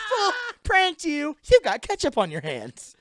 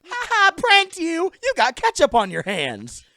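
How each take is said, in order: First: Prank toy voice. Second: High, loud, slow mocking toy voice; prank toy voice. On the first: Retold or imitated. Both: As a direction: taunt like a talking prank doll. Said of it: "that voice said everything".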